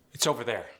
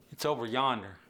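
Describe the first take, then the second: First: Said in the usual way. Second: "yonder" in an easy Appalachian lilt; country Appalachian phrasing; Appalachian accent. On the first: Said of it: "In standard American English". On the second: Shown as a demonstration. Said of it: "whereas Earl's gonna say".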